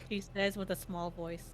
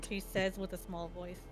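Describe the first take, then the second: No difference in how they are said.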